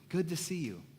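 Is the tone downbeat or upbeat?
upbeat. The tone is bright and enthusiastic. The greeter is truly glad.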